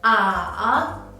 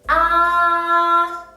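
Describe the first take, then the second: First: The syllable is said with the third tone. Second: The syllable is said with the first tone. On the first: "And the third tone" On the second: "The first tone, read after me"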